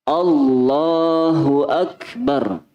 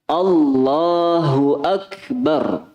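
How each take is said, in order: Both takes have the same delivery.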